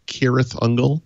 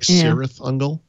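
First: Cirith begins with a hard K sound. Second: Cirith begins with a soft S sound. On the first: The speaker calls it right. "all of the C names like Cirith Ungol are hard C's" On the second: The speaker calls it wrong. "I read them as S sound C's"

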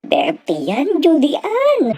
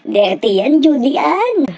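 First: The voice sounds tearful, close to crying. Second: The voice sounds disgusted and repulsed. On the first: "parang maiiyak ang kanyang boses" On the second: "Parang nandidiri ang kanyang boses"

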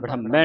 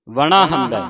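First: It is said as one fused word. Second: It is said as two parts, full vowel. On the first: The speaker calls it wrong. "ਵੜਹੰਬੈ ਨਹੀਂ ਪੜ੍ਹਨਾ" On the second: The speaker calls it right. "ਕੰਨਾ ਲੱਗਾ ਜਿਹੜਾ ਪੂਰਾ ਬੋਲ ਕੇ, ਫਿਰ ਹੰਬੈ"

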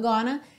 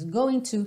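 First: The words are blended into one reduced word. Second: Both words are said fully and separately.

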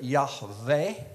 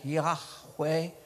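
First: The middle consonant is a V sound. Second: The middle consonant is a W sound.

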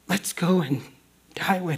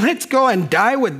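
First: The words are said in an earnest tone. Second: The words are said in a mocking tone. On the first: The speaker loyally means to stay with him. The speaker calls it right. "Because we love Jesus. We don't want him to be by himself" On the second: The speaker doubts the plan and mocks it. The speaker calls it wrong. "Could he be sarcastically speaking?"

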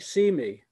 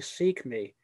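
First: The k sound at the end of seek is dropped. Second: The k sound at the end of seek is heard. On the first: The speaker calls it wrong. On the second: The speaker calls it right.

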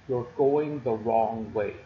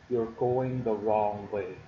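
No difference in how they are said.

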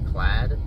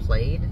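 First: The vowel rhymes with the vowel in 'mad'. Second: The vowel rhymes with the vowel in 'made'. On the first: This is the standard pronunciation. The speaker calls it right. "but it's actually plaid" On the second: This is the speaker's preferred but incorrect reading. The speaker calls it wrong. "I want to call it plaid"

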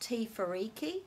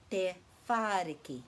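First: The stress falls on the syllable riki. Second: The stress falls on the syllable wha. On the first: The speaker calls it wrong. "lots of people think it's te fa riki" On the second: The speaker calls it right. "the emphasis is on this syllable because there's a macron"

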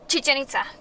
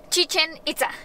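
First: The two words are run closely together. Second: The two words are said apart from each other. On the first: The speaker calls it right. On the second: The speaker calls it wrong.

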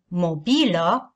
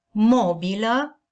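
First: The stress is on the second syllable. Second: The stress is on the first syllable. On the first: The word means something movable. The speaker calls it wrong. "cu accentul pe a doua silabă" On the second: The word means furniture. The speaker calls it right. "cu accentul pe prima silabă"

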